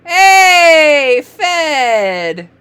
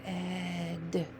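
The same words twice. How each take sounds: First: Loud, high, drawn-out cheer; excited reveal. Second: Fed very softly stretched, long f into eh and d; slid sounds. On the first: Teacher cheering a reader's word, loud and excited. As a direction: celebrate the answer loudly. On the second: Teacher modelling sliding for a reader, Fed stretched softly. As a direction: slide softly through every sound of Fed. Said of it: "Can you slide it?". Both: Shown as a demonstration.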